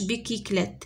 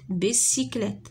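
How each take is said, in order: First: The middle consonant is a K sound. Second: The middle consonant is an S sound. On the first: The speaker calls it wrong. "ما تقراتش بيكيكليت" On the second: The speaker calls it right. "بيسيكليت ما تقراتش بيكيكليت"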